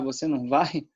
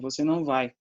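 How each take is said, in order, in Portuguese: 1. O tom sobe no final, como numa pergunta. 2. O tom fica plano, sem a subida de pergunta. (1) "eles estão querendo perguntar" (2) "mas não tem tom de pergunta"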